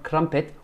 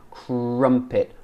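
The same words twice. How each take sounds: First: "crumpet" higher, with a tapped R; wrong R demo. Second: "Crumpet" with a smooth, untrilled R; British R crumpet. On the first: Retold or imitated. Teacher showing what to avoid, "crumpet" with a tapped R. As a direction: mimic a learner tapping the R in "crumpet". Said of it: "Not crumpet". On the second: Shown as a demonstration. Teacher showing the mouth shape, "Crumpet" with smooth untrilled R. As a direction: round the R in "Crumpet", no tap. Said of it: "Look at my mouth".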